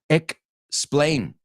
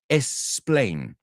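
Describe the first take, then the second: First: The word begins with an 'eks' sound. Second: The word begins with an 'es' sound. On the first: The speaker calls it right. "¿qué si pones una K entre ellas? Explain. ¿Ves? Now we got it perfect" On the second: The speaker calls it wrong. "el error, explain. O sea, estás diciendo E S"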